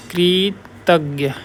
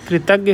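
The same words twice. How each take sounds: First: "कृतज्ञ" drawn out very slowly, kri, pause, tagya; syllable by syllable. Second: Said in the usual way. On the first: Shown as a demonstration. Teacher showing students a confusable word, syllable by syllable. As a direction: sound out "कृतज्ञ" in slow separate parts. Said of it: "ऐसे होता है".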